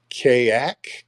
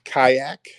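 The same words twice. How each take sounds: First: Kayak said KAY-ak, questioning rise; trying a pronunciation. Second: Kayak said KAI-ak, questioning rise; corrected pronunciation. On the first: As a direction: try the first syllable of Kayak as "kay". Trying out an unfamiliar name. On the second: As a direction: try the first syllable of Kayak to rhyme with "sky". Second try at the name. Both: Real, not acted.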